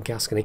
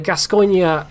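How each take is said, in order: First: The name is said with anglicized English sounds. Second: The name is said with French-style sounds.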